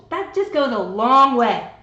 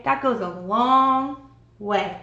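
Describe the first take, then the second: First: Loud, slow push on just; emphatic. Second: Very slow, every word weighted; drawn out and loud, to make it sink in; slow emphasis. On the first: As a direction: lean hard on "just goes a long way". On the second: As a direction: stretch out "That goes a long way", stressing "That". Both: Shown as a demonstration. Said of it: "repeats phrase for emphasis".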